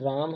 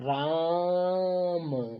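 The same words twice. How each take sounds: First: The word is said at normal length. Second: The vowel is stretched out long.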